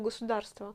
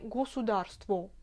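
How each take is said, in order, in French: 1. Le O final non accentué se prononce comme A. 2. Le O final non accentué se prononce comme O. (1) "je le prononce toujours euh, comme le A" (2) "notamment à Kostroma, on prononce tous les O comme les O"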